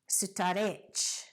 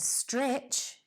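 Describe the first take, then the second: First: Extra vowels split the consonants into several syllables. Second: It is one syllable with no added vowels.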